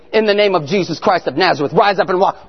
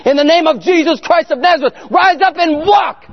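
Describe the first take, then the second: First: Said in the usual way. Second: High, loud commanding shout, slowing at the end; commanding shout at the empty room, higher and louder; forceful prayer shout. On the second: Retold or imitated. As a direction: bellow the healing command with all your force. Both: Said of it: "I just doing it so hard".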